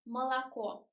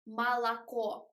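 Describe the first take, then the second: First: The unstressed vowels are a reduced schwa sound. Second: The unstressed vowels are a wide open a. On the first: The speaker calls it right. "we should pronounce it like молоко" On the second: The speaker calls it wrong. "They write a here, but it isn't correct because we don't say молоко"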